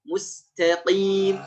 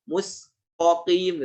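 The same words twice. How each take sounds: First: The t sound is thin and light. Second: The t sound is thick and heavy. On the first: The speaker calls it right. "ta-nya dihaluskan, ditipiskan" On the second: The speaker calls it wrong. "fathah tuh ikut tebal juga"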